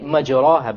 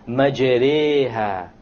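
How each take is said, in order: First: The vowel after the r is a clear open 'a'. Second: The vowel after the r is between 'a' and 'e'. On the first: The speaker calls it wrong. "If you were to not know what an imala is, you would say majraha, but that's a mistake" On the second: The speaker calls it right. "An imala is pronounced as this"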